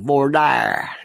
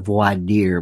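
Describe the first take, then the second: First: It is said with a Southern US pronunciation. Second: It is said with a non-Southern pronunciation. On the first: "when you're from the South, you see things like voir dire" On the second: "Not voir dire"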